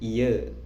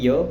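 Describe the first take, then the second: First: The word ends with an e vowel. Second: The word ends with an o vowel. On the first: This is how people in Pemalang say it. "kalau di Pemalang itu bilangnya iya" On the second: This is how people in Semarang say it. "Kalau di sini iyo pakai fonem o ya"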